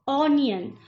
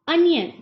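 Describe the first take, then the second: First: The first vowel sounds like 'on'. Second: The first vowel sounds like 'un'. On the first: The speaker calls it wrong. "Wrong pronunciation" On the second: The speaker calls it right. "सही तरीका"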